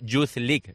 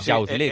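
First: Youth is pronounced with an English-like sound. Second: Youth is pronounced with a Spanish-like sound. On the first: The speaker calls it right. "se dice Youth League" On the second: The speaker calls it wrong. "no se dice Youth League"

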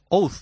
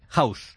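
First: The name is pronounced with a Spanish reading. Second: The name is pronounced like English 'house'. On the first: The speaker calls it wrong. "en español es Oud" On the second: The speaker calls it right. "lo primero que tengo que hacer es matizar el nombre"

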